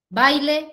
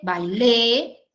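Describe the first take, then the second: First: The stress is on the first syllable. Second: The stress is on the last syllable. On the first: "Entonces ahí yo puedo cambiar la posición" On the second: "Entonces ahí yo puedo cambiar la posición"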